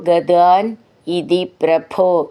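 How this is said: There is a pause after the first word. "അവിടെ നിർത്തി ചൊല്ലുമ്പോൾ"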